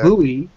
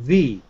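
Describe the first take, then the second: First: It is said like the Japanese 'bui'. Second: It is said like the English 'vee'. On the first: "you're saying" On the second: "I'm saying V. It's completely different"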